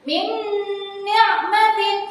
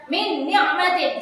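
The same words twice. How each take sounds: First: Idgham with a hum. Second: No held hum between "Min" and "ni'matin"; wrong clear reading. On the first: Teacher models merging nun into nun, long hummed recitation. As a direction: hold the n of "Min ni'matin" in a long hum. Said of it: "ada dengungannya". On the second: Teacher shows the wrong reading like idhar, hum left out. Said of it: "Tidak boleh dibaca jelas". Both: Shown as a demonstration.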